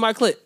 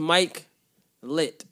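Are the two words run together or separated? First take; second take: Run together; Separated. First: The two words are run together quickly. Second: The two words are said with a clear gap. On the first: The speaker calls it wrong. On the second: The speaker calls it right.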